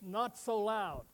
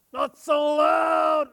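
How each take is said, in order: First: Said in the usual way. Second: Slow, high shouted echo; hammed-up bellow; mock shout. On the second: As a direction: yell it back to mock him.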